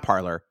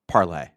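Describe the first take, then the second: First: It is pronounced the English way, ending in -ler. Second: It is pronounced the French way, ending in -lay. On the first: The speaker calls it wrong. "not Parler" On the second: The speaker calls it right. "pronounce it in a French way"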